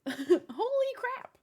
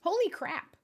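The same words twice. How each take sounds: First: Higher, slow, drawn-out astonishment; stunned. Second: Said in the usual way. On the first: Real, not acted. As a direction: stretch it out in awe. Reacting to gift.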